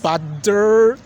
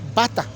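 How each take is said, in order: First: The middle t sounds like a d. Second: The middle t is a clear t. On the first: "The American guys they say butter. ... T they use as D" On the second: "While the British they just say bata"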